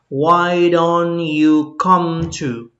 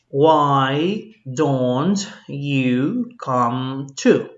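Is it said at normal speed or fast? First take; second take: fast; normal speed. First: It is said fast. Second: It is said at normal speed.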